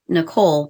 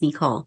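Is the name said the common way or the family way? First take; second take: common; family. First: The name is said the commonly heard way. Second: The name is said the family's own way. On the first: This is how most people know her name. The speaker calls it wrong. "as most of you know her as Nicole" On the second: This is how her family says her name. The speaker calls it right. "in our family she is Nicole. That's the way you say her name"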